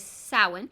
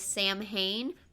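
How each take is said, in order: First: The word is pronounced differently from its spelling. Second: The word is pronounced as it is spelled. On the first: The speaker calls it right. "It is Samhain" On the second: The speaker calls it wrong. "it's almost spelled as if it says Sam Hain, but that's not the way it's pronounced"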